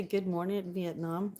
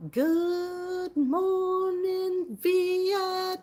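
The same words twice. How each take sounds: First: Said in the usual way. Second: High, loud, hugely drawn-out radio-show yell; Robin Williams. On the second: Shown as a demonstration. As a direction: stretch every word into a long, high holler. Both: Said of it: "You mean like Robin Williams?".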